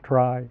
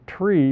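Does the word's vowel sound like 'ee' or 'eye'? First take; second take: eye; ee. First: The word is said with an 'eye' vowel. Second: The word is said with an 'ee' vowel. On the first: It is kept distinct from another term. The speaker calls it right. "so we pronounce it try" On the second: It would be confused with another term. The speaker calls it wrong. "we don't pronounce it tree because then we couldn't distinguish it from binary search trees"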